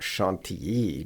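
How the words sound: The name has a French pronunciation. "people in France pronounce that Chantilly"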